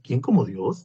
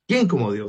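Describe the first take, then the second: First: It is said as a rising question. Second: It is said as an emphatic exclamation.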